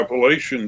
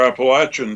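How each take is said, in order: First: The word has a general, non-regional pronunciation. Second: The word has the local regional pronunciation.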